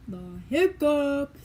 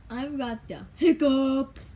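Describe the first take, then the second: First: Slow, hiccuping repeat; hiccups. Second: Slow words broken by hiccups. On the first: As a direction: squeeze words between hiccups. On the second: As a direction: talk through the hiccups. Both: Real, not acted.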